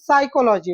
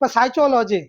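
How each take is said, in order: First: The second syllable starts with a 'k' sound. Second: The second syllable starts with a 'ch' sound. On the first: It is the actual accepted pronunciation. The speaker calls it right. "लेकिन उसका pronunciation साइकोलॉजी होता है" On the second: It follows the written letters literally. The speaker calls it wrong. "मतलब साइचोलॉजी ऐसे करेंगे"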